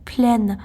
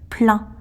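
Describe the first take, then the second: First: It ends in a clear n sound. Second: It ends in a nasal vowel with no n. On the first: "lorsqu'il s'agit d'une voyelle après, ça se prononce pleine" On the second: "je sais très bien que le mot se prononce plein"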